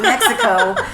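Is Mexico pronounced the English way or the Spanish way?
English. The word is pronounced the English way. "not Mexico"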